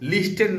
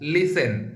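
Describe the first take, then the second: First: The t sound in the middle is pronounced. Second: The t sound in the middle is silent. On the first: The speaker calls it wrong. "লিস্টেন না কিন্তু উচ্চারণটা" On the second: The speaker calls it right. "ওটা কিন্তু লিসেন হয়"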